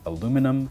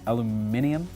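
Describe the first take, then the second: First: It is said the speaker's usual American way. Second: It is said the alternate way with an added syllable.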